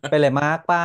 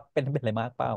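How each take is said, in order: First: Lakorn villainess. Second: Soft concerned. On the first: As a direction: ask it like a soap opera villain. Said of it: "นั้นช่องเสียงนางร้ายแบบเธอค่ะ". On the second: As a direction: ask softly like you really care. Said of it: "อ๋อ ใช้น้ำเสียงนี้เหรอ". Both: Retold or imitated.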